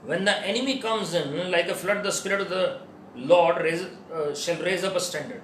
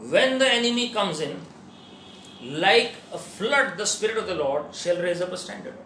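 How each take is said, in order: First: The pause falls after "like a flood". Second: The pause falls after "comes in".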